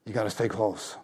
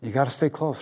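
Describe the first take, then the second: First: Softer, hushed echo of the plea; softer repeat. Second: Said in the usual way. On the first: Real, not acted. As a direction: bring it down, intimate and quieter.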